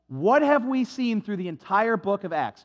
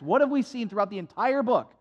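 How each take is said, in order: First: It is said slowly. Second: It is said fast.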